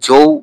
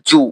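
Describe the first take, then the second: First: The vowel glides like an 'ow' sound. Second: The vowel is a plain long 'oo' sound. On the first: The speaker calls it wrong. "জৌ ভাবটা আসে কিন্তু ওটা না দিয়ে জু করলে ভালো হয়।" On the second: The speaker calls it right. "আপনারা উচ্চারণ করবেন এইটা জু।"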